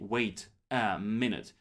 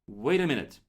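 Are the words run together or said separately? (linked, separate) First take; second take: separate; linked. First: Each word is said separately, without linking. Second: The words are linked together into one stream. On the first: The speaker calls it wrong. "They don't say wait a minute" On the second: The speaker calls it right. "It sounds like wait a minute"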